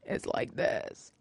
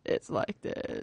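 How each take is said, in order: First: Creaky, low fry voice; vocal fry. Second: Copying vocal fry. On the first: Vocal fry shown to a cohost. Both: Shown as a demonstration.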